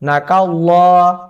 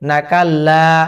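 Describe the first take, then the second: First: The L sound is thick and heavy. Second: The L sound is thin and light. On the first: The speaker calls it right. "এখানে লাম শব্দটি কিন্তু মোটা হবে" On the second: The speaker calls it wrong. "এখানে অনেকে বলে"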